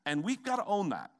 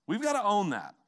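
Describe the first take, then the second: First: We've gotta own that, steady and firm. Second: We've gotta own that, pushed up louder and higher; louder, higher repeat. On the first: Pastor urges the church to accept its fault, firmly. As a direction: state it plainly as a commitment. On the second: Pastor presses the congregation harder, louder and higher. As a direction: hammer it home the second time. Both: Shown as a demonstration.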